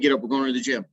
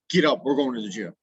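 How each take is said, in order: First: It is said in a friendly, upbeat tone. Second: It is said in a harsh, irritated tone. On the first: The listener reacts positively. The speaker calls it right. "His attitude is is is positive" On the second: The listener reacts with a different attitude. The speaker calls it wrong. "that's a whole different inflection"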